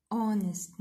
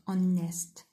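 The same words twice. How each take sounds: First: "honest" stressed on "HON"; teacher giving the right version; correct stress on first syllable. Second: "honest" stretched with a misplaced stress; teacher demonstrating the mistake; wrong stress, slow. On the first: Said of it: "So we say". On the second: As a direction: drawl "honest" slowly to show the wrong way. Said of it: "not honest". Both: Shown as a demonstration.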